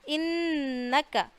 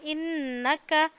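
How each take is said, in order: No difference in how they are said.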